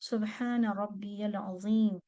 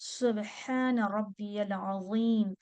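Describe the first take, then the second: First: The middle word is said as 'rabbiyal'. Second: The middle word is said as 'rabbiyal'.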